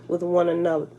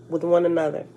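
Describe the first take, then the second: The two takes are said the same way.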